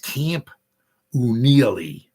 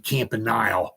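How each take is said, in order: First: The name is said differently from its spelling. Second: The name is said the way it is spelled. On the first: "but I think it's" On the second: "it looks like it's supposed to be"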